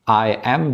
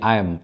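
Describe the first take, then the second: First: It is said as two full separate words. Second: It is squeezed into one short syllable. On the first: "I am disingkat jadi I'm" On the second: "disingkat jadi I'm"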